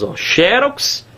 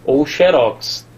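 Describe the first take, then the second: First: Xerox with a closed O, slow and high. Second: Xerox with an open Ó, slow, falling. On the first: Teacher showing the first accepted pronunciation. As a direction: say xerox slowly, closed O, rising. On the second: Teacher contrasting the second accepted pronunciation. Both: Shown as a demonstration. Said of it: "As duas pronúncias são aceitas".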